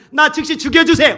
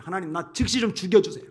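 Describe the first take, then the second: First: High, loud acted begging; desperate plea. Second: Said in the usual way. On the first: Preacher as Moses begging God for death, desperate shout. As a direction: cry it out as a desperate demand.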